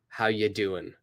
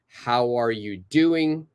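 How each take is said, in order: First: 'Are' is dropped completely, leaving 'how you doing'. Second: Every word is said in full, including 'are you'.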